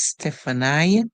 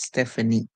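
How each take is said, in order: First: The name ends with an 'eye' sound. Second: The name ends with an 'ee' sound. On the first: "they are pronouncing it as I" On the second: "So the E sound would be used"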